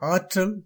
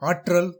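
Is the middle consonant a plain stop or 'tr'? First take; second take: plain stop; tr. First: The middle consonant is a plain doubled stop. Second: The middle consonant is pronounced like 'tr'. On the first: The speaker calls it right. "சரி" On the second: The speaker calls it wrong. "தவறு"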